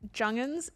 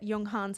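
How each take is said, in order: First: The surname gets the Australian pronunciation. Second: The surname gets the non-Australian pronunciation. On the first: This is how people in one country say the name. "is how the Australians say it" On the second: This is how the rest of the world says the name. "is how every other country says it"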